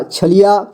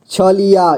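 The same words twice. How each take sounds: First: Said in the usual way. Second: छलिया in separate joined-up steps; syllable by syllable. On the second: Shown as a demonstration. Teacher showing beginners how to read छलिया, syllable by syllable. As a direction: sound out छलिया as छ-लि-या. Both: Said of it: "जोड़ जोड़ करके ही पढ़ना होगा".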